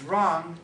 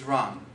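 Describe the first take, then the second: First: The final consonant is voiced, like a G. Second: The final consonant is voiceless, like a K. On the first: "when they want to say something is wrong" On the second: "they don't voice it properly"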